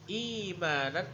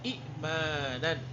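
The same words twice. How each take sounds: First: The first vowel is long, with no glottal stop. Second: The first vowel is short, then a glottal stop. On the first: This is how the word is actually read. "Hamzah yang kedua ini dijadikan mad" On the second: This is the original underlying form.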